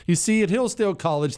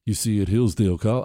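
First: Said in the usual way. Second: Low, restrained, put-on gentle tone; mock loving voice. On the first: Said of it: "I'm too mean". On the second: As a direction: hold back as if tenderly explaining. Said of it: "I can't do the loving voice for too long".

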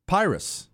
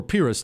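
First: Pyrrhus said as PIE-rus; first pronunciation. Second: Pyrrhus said as PEER-us; alternative pronunciation. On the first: Host offering a variant name of the general, Pyrrhus as PIE-rus. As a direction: say Pyrrhus with a long "eye" in the first syllable. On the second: Host giving the other name of the general, Pyrrhus as PEER-us. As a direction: say Pyrrhus with an "ee" in the first syllable. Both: Shown as a demonstration. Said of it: "depending on how you pronounce it".

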